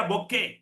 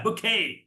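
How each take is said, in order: First: ബൊക്കെ with "bo" start; local-style ബൊക്കെ, short final vowel; common mispronunciation. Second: ബുക്കേ with "bu" start; long final vowel on ബുക്കേ; correct English pronunciation. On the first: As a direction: say ബൊക്കെ with full "o". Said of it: "നമ്മൾ എന്താ പറയാ". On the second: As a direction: model ബുക്കേ, stressed long "kay". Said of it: "ബൊക്കെ അല്ല". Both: Shown as a demonstration.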